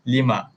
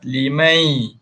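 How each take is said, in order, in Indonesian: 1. Kata itu berakhir dengan vokal biasa, tanpa n. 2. Kata itu berakhir dengan geseran y yang tipis. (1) "hilangkan sebutan nun" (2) "bunyikan ya sikit, masukkan sikit ya"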